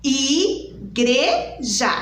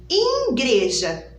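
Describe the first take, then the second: First: Slow, careful "Igreja" with every sound clear; right way. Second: Put-on "igreja" as children mispronounce it; wrong way. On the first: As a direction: say "Igreja" correctly and slowly. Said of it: "Não". ("Igreja" pronunciado certo, devagar) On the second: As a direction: mimic the common wrong "igreja". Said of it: "Muitas crianças falam assim". ("igreja" dito do jeito errado) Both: Shown as a demonstration.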